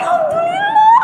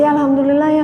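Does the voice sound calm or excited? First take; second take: excited; calm. First: It is said with lively, delighted excitement. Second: It is said calmly, with little excitement. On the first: The result brings deep satisfaction. "intonasinya nggak begitu" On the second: The result is merely fine. "ya senang sih"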